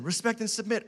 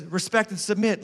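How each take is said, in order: First: Respect AND submit, with the weight on "and" and softer; stress on and. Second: Said in the usual way. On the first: Shown as a demonstration. Pastor repeats the command to wives, leaning on "and".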